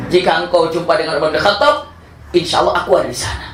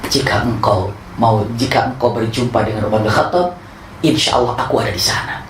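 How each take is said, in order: First: Said again a little higher, through a laugh; amused, lightly raised retelling; laughing retake. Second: Said in the usual way. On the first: Shown as a demonstration. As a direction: redo the promise half laughing. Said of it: "Nggak bohong kan?". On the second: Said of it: "aku Umar nggak begitu".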